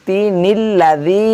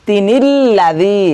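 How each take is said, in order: No difference in how they are said.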